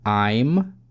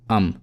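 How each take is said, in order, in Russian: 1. В слове полный дифтонгический гласный. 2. В слове редуцированный нейтральный гласный. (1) "Произнести I'm" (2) "либо um"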